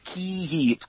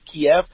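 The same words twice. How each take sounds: First: The city name is said in its Ukrainian form. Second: The city name is said in its Russian form. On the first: This is the newer, preferred name. "That's the Ukrainian way to pronounce it" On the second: This is the older, habitual name. "I'm Russian speaking Ukrainian. For me, it's always Kiev"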